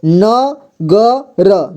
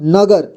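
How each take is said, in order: First: न ग र said very slowly, each syllable apart. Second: Said in the usual way. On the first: Shown as a demonstration. Teacher splitting the word for students, syllables drawn out slowly. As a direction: break न ग र into its sounds, one by one. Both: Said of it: "और यहाँ पर ध्यान दीजिए".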